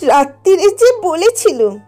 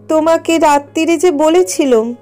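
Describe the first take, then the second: First: It is said in a mocking, mimicking voice. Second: It is said plainly, in the daughter's voice.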